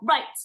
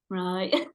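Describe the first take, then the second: First: The word is said with lively energy. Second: The word is said flat and low-energy. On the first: The speaker is in her usual state. "my right" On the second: The speaker is exhausted. "a real barometer of my tiredness levels"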